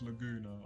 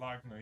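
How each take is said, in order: First: The middle vowel is kept, giving three syllables. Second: The middle vowel is dropped, leaving two syllables. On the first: The speaker calls it right. "even though it's Laguna" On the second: The speaker calls it wrong. "I pronounce it Lagna"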